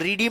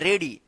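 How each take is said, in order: First: The first vowel sounds like 'ee'. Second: The first vowel sounds like 'eh'. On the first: The speaker calls it wrong. "इसको रीडी मत पढ़िएगा" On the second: The speaker calls it right.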